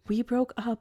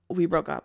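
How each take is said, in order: First: It is said with desperate, pained emotion. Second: It is said casually and dismissively.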